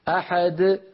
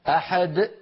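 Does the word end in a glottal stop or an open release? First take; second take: open release; glottal stop. First: The final d releases openly without a stop. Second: The final d closes with a glottal stop. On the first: The speaker calls it right. "أما الوتران الصوتيان في الحنجرة فيبقيان هكذا" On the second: The speaker calls it wrong. "يقفل الوترين الصوتيين في فمه"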